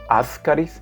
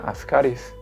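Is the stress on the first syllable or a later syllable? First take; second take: first; later. First: The stress falls on the first syllable. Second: The stress falls on a later syllable. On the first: "le ponen acento en la A en, para pronunciarlo Ascaris" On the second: "no se debe poner acento, y la pronunciación correcta sería Ascaris"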